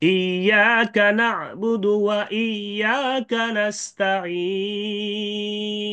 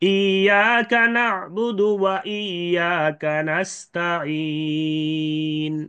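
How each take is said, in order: First: The final long vowel is held three counts. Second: The final long vowel is held two counts. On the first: "তিন আলিফের সাথে Ismam" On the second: "দুই আলিফের সাথে ইসমাম"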